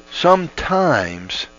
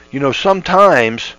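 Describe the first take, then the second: First: Drawn-out slow sometimes, higher; slow repeat. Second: Said in the usual way. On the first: Shown as a demonstration. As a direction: stretch sometimes out slowly for weight.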